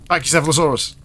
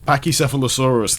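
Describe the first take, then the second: First: The word is said at normal speed. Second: The word is said slowly.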